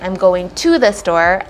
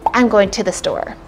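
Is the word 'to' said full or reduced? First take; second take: full; reduced. First: The word 'to' has a full 'oo' vowel. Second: The word 'to' is reduced to 'ta'. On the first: The speaker calls it wrong. "instead of saying" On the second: The speaker calls it right. "I would say as a native English speaker"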